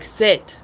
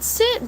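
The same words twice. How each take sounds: First: It sounds like a firm, commanding order. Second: It sounds like a soft, asking request. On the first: The dog understands it must obey. The speaker calls it right. "it does need to be tone of voice" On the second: The dog does not take it as a command. The speaker calls it wrong. "if you're asking for them to do something"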